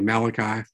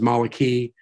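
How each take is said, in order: First: It is pronounced the English way. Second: It is pronounced the Hebrew way. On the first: "We say Malachi" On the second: "the actual Hebrew word is Malachi"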